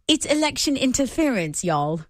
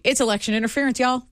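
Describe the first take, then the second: First: It is read in a put-on British accent. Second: It is read without a British accent.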